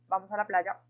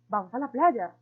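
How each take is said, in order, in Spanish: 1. Se dice como una afirmación simple. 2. Se dice como una exclamación emotiva. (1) "primero lo hicimos de forma afirmativa, dando como una instrucción" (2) "el tercero con emocionalidad en forma de exclamación"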